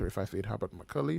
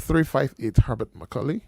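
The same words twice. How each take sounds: First: It is said fast. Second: It is said slowly.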